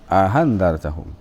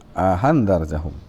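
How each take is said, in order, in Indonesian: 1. Vokal pendek datang sebelum hamza kedua yang dilunakkan. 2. Vokal pendek datang sebelum hamza kedua yang dilunakkan.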